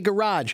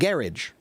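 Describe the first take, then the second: First: The word is said with an American pronunciation. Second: The word is said with a British pronunciation. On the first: "we say garage" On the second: "the British pronounce it garage"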